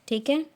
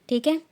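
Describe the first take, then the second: No difference in how they are said.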